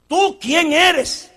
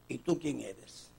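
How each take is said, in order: First: Slow insistent question. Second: Soft questioning. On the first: John questioned, loud take. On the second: John questioned, quiet take. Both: Acted.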